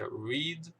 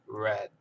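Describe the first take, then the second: First: It is said with a long 'ee' vowel. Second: It is said with a short 'e' vowel. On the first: The reading happens now. "Presente é read" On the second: The reading happened in the past. "passado é read"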